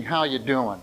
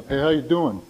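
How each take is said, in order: First: Softer, truthful check-in; sincere asking. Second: Casual New York-style hello; New York greeting. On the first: Shown as a demonstration. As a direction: ask it as if you truly want to know. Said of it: "Truthfully asking". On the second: Retold or imitated. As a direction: toss it off like a New Yorker, lightly imitated. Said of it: "Something like a New York thing".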